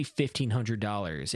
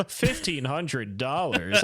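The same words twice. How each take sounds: First: Said in the usual way. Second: Slow, laughing echo of a price; mock incredulity. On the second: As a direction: scoff at the sum, drawing out each word.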